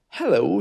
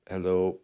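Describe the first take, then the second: First: The pitch goes up and then down. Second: The pitch stays flat throughout. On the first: The speaker sounds happy and enthusiastic. The speaker calls it right. "where I take my usual tone of voice and I put it up and down" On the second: The speaker sounds unenthusiastic. The speaker calls it wrong. "the other one I used was monotone"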